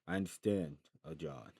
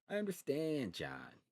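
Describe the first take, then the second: First: It is said in the reader's ordinary voice. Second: It is said in a put-on voice for Gennaro.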